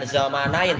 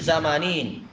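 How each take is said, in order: First: The last syllable has an 'ai' diphthong. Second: The last syllable has a plain 'i' vowel. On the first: The speaker calls it wrong. "bukan Zamanain" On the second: The speaker calls it right. "tapi Zamanin"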